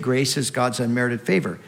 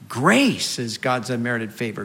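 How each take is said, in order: First: The stress falls on the word unmerited. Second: The stress falls on the word grace. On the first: The favor is given without being earned. "the emphasis there is on the unmerited part" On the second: The favor is given in great abundance. "we also need to put the emphasis on grace"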